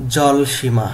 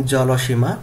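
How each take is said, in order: First: জলসীমা as jol-shima, no vowel after l; correct pronunciation. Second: জলসীমা with an extra o, jolo-shima; pronunciation contrast. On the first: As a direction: say জলসীমা firmly and louder, falling at the end. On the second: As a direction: say জলসীমা in four syllables, rising at the end. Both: Shown as a demonstration. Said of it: "এইভাবে উচ্চারণ করতে হবে".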